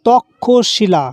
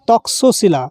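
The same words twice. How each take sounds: First: The middle cluster is pronounced as an aspirated kkh. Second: The middle cluster is pronounced as k plus sh. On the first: This is the Bengali pronunciation. "ক্ষয়ের মতো উচ্চারণ হবে এটা" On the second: This is the Hindi and Sanskrit pronunciation. "Hindi এবং সংস্কৃততে কয়ে মূর্ধন্য স এর মধ্যে যেই দুটো বর্ণ আছে দুটোকেই উচ্চারণ করতে হয়"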